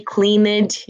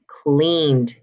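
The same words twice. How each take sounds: First: "cleaned" higher, as clean-id; wrong extra syllable. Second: "cleaned" slow, as one syllable, cleend; final D sound. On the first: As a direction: give "cleaned" a second syllable. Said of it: "You're not gonna say". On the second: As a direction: end "cleaned" on D, no E. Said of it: "the last one is D". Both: Shown as a demonstration.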